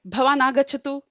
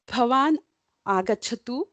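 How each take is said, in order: First: It is said in a sharp, demanding tone. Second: It is said in a soft, gentle, polite tone. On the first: It is a rude order to come. "but hey, you come here. The tone has changed" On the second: It is a polite request. "your tone is very nice, gentle. You are requesting them"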